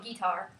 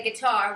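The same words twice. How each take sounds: First: "guitar" said GEE-tar, stress up front; wrong pronunciation. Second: "guitar" with short unstressed first syllable, stress on TAR; correct pronunciation. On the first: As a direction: lean on a long GEE in "guitar". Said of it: "not gonna call it guitar". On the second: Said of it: "We're gonna say guitar". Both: Shown as a demonstration.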